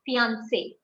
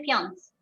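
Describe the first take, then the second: First: Fiancé as "fee-ahn-say"; accented final E sounded. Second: Fiance said as "fee-ahns", no "ay"; final E left silent. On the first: Teacher correcting the mistake, fiancé with its final "ay" sounded. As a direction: end fiancé on a clear "say". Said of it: "We don't say fiance, fiancé". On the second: Teacher showing what not to say, fiance ending in a silent e. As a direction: stop fiance on the s sound. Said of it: "We don't say fiance". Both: Shown as a demonstration.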